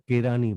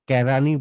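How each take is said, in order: First: The first vowel is closer, like 'e'. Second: The first vowel is open, like 'ae'. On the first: The speaker calls it right. "আমরা কেরানি বলবো" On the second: The speaker calls it wrong. "আমরা কেরানি বলবো না"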